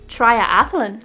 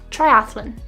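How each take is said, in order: First: An extra vowel sound is added in the middle. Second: No extra vowel sound is added in the middle. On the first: The speaker calls it wrong. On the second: The speaker calls it right.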